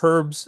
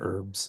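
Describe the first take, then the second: First: The H at the start is pronounced. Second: The H at the start is silent.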